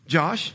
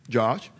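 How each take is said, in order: First: The name is said in a normal voice. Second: The name is said in a deeper voice.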